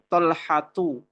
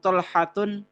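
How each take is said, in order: First: The word ends on a vowel without n. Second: The word ends with an added n sound. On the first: The speaker calls it right. "Maka kita ucapkan Tolhatu" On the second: The speaker calls it wrong. "kita nggak bisa bilang Tolhatun, tidak bisa"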